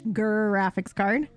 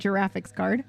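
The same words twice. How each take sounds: First: The word begins with a hard G sound. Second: The word begins with a J sound. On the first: The speaker calls it right. "that to me is still the hard G" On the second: The speaker calls it wrong. "You don't say"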